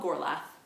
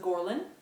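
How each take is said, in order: First: The name ends with a 'th' sound. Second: The name ends with an 'n' sound. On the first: The speaker calls it wrong. "I have been mispronouncing the title of this book" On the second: The speaker calls it right. "it's called The Ruins of Gorlan"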